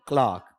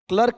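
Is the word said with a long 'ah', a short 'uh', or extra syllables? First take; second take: long ah; short uh. First: It has one syllable with a long 'ah' vowel. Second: It has one syllable with a short 'uh' vowel. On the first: The speaker calls it right. "बल्कि क्लार्क" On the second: The speaker calls it wrong. "क्लर्क या कलरक नहीं होता है"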